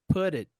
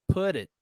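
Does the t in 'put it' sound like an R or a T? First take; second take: R; R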